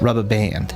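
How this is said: The vowel in band is long and stretched. "in an Australian accent ... longer A sound"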